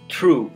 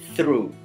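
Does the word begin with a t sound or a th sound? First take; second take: t; th. First: It begins with a hard t sound. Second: It begins with a soft th sound.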